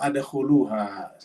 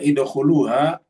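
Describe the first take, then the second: First: The word begins with an a vowel. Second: The word begins with an i vowel. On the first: "atau adkhuluha. Ya, salah" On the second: "tidak boleh baca idkhuluha"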